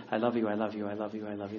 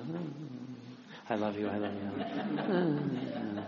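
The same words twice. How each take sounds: First: Low, soft, monotone repetition; one spouse. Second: Other spouse. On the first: One spouse repeating endearments to the other, low monotone. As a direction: repeat it low and evenly, like a routine. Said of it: "the one's saying". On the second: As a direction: answer low and softly, stretching the last one. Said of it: "and the other one says". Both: Acted.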